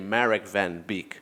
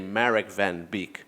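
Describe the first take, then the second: First: The name is said with an English-speaking accent. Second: The name is said with an English-speaking accent.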